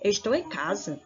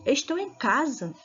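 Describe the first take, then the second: First: It is said as a questioning, rising query. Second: It is said with surprised, enthusiastic astonishment.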